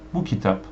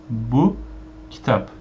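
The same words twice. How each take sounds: First: Bu kitap said as this book, stress on Bu. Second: Bu kitap with kitap carrying the weight; even stress. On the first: Teacher demonstrating this book, stress on Bu. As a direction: hit Bu, keep kitap light. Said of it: "you say it like this". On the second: Teacher showing learners the this is book reading. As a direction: spread the stress toward kitap. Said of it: "If you say". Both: Shown as a demonstration.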